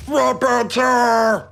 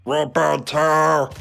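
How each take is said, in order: First: Very slow, loud, high bellowing shout; deep proud strongman bellow. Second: Slow, drawn-out strongman call; Strong Mad voice. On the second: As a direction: stretch it out like a dim strongman. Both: Retold or imitated. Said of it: "a better Strong Mad impression".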